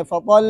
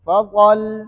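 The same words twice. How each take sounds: First: فطل with the lam stretched too long; wrong drawn-out reading. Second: فطل with a firm doubled lam, not stretched; correct short reading. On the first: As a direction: show the mistake by lengthening فطل. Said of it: "ایسے نہیں کرنے". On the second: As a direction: press the tongue firmly on the lam of فطل. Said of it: "بلکہ کیا کرنے". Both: Shown as a demonstration.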